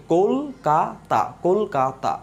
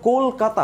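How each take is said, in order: First: "Kolkata" slowly as কোল, কা, তা; syllable by syllable. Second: Said in the usual way. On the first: Shown as a demonstration. Teacher showing how we pronounce it, syllable by syllable. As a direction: separate the three beats of "Kolkata". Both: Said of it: "আমরা উচ্চারণ করছি কিভাবে".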